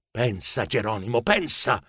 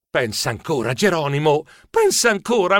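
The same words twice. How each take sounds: First: Soft, low self-talk; talking to himself. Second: Urging himself on. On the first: Narrator urging himself to think, hushed self-talk. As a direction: think aloud, low and under your voice. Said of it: "mi dissi". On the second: Narrator repeating to himself before his last attempt, mounting self-urging. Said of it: "mi ripetei". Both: A narrator's reading.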